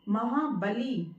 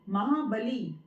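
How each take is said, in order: Both takes have the same delivery.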